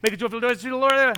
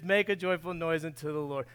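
First: It is said quickly, sped up. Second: It is said at a slower, normal pace.

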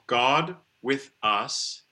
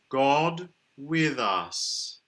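First: The words are split apart with breaks between. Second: The words run smoothly together with a rounded O. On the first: The speaker calls it wrong. "We don't need to split them all up" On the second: The speaker calls it right. "A lovely rounded O is good on God. The voice th is more regular for British pronunciation. And we can link in"

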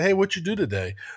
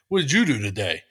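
First: It sounds friendly and interested. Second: It sounds negative and accusing.

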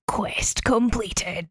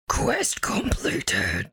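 First: It is said in her own clear voice. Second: It is said in a gravelly, demonic voice.

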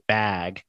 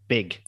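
First: It is said in a standard American accent. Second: It is said in a Wisconsin accent.

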